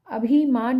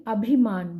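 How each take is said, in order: First: अभिमान with a long ई in भि, as abheemaan; wrong long vowel. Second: अभिमान with a short इ in भि; correct short vowel. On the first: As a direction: stretch भि in अभिमान, higher and louder. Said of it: "अभिमान नहीं". (अभिमान में 'भी' लंबा बोलें) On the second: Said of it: "भा में छोटी की मात्रा". (अभिमान में 'भि' छोटा बोलें) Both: Shown as a demonstration.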